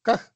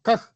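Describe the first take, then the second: The two takes are said the same way.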